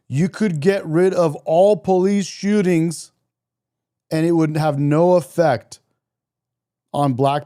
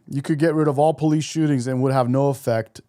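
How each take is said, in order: First: It is said slowly and deliberately. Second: It is said at a normal speed.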